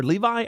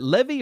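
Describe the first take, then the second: First: Levi said as "LEE-vye"; unsure pronunciation. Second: Levy said as "LEV-ee"; short first vowel in Levy, ending in "ee"; unsure pronunciation. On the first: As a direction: end Levi on a long "eye" sound. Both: Shown as a demonstration. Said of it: "how to pronounce his last name".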